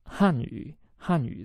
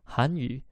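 First: The first syllable has a falling pitch. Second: The first syllable has a rising pitch. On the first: It means the Chinese language. "that's fourth tone going down" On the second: It means the Korean language. "Second tone, right? 韩，韩 going up"

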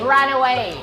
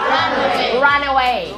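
First: The n links into away, like ra. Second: The two words are said separately. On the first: The speaker calls it right. "อ่านว่า run away นั่นเลยอย่าลืมเสียง ra" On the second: The speaker calls it wrong. "ไม่อ่านว่า run away"

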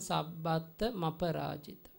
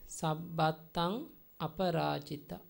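First: The two words are joined together. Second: The two words are said separately.

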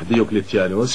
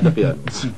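First: The name is said in full as Diocletianus. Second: The name is said in a shortened form, Diqyanus. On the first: The speaker calls it right. "حتى الآن لا يستطيع تلفظها بشكل صحيح" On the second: The speaker calls it wrong. "يلفظها دقيانوس"

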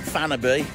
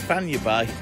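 First: The middle consonant is a plain n sound. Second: The middle consonant is a palatal ny sound. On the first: The speaker calls it wrong. "as a lot of people say, as we pronounce it in English" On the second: The speaker calls it right. "It's Fanya Bay"

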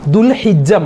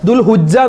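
First: The vowel after the h is i. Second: The vowel after the h is u. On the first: The speaker calls it right. "ദുൽഹിജ്ജ മാസം" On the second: The speaker calls it wrong. "ദുൽഹുജ്ജ എന്ന് പറയാറുണ്ട്. അതൊക്കെ തെറ്റാണ്"

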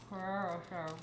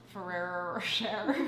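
First: The name is said quickly in one go. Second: The name is said slowly and carefully. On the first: "Just say it fast" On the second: "I never know how to say it"

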